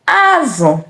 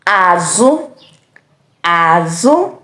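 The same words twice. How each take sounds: First: "Azụ" high, then falling; fish tone. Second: "azụ" low, then rising; back tone. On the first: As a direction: say "Azụ" starting high and dropping on the second syllable. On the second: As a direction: start "azụ" low and lift the second syllable. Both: Shown as a demonstration. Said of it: "different pronunciation".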